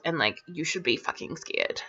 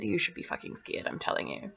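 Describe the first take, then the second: First: Said in the usual way. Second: Dramatic, ominous whisper, much softer. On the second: Acted. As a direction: lean in and whisper the warning. Ominous warning to viewers.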